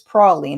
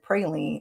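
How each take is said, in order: First: The first syllable sounds like 'prah'. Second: The first syllable sounds like 'pray'. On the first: This is how it is said in the movie. The speaker calls it right. "they said in the movie that it's praline" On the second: This is how the speaker has always said it. The speaker calls it wrong. "I say pray"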